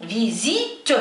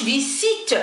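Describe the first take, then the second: First: French "visite" as "vi-zit", buzzing Z in the middle; Z pronunciation. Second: French "visite" mispronounced as "vi-ssit"; wrong S pronunciation. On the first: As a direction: say "فيزيت" with a voiced Z between the vowels. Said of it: "هنا ينطق ز". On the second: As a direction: say "فيسيت" with a hissed S between the vowels. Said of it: "لا ينطق س". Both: Shown as a demonstration.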